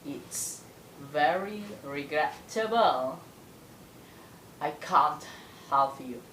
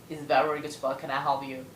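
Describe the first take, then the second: First: The sentence is spoken slowly, with intonation. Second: The sentence is spoken quickly and smoothly. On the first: "Itu versi yang lambatnya. Tapi tetap berintonasi" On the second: "versi yang agak lajunya, ya. Atau lajunya, kayak gini"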